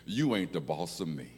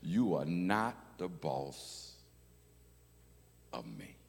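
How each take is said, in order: First: It uses the casual reduced form "ain't." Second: It uses the full careful form "are not." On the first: "I'll say it the way I say it" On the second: "then I'll say it how I wrote it"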